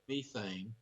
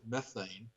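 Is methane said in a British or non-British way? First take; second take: British; non-British. First: The word is said with a British pronunciation. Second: The word is said with a non-British pronunciation. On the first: "I love the way you pronounce it" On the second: "we pronounce it methane"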